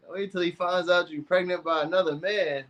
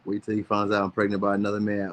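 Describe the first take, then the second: First: High-voiced, scandalized echo; mock shock. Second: Said in the usual way. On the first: Echoing Katie's comment back to her, in mock shock. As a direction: repeat it in a high, put-on aghast voice.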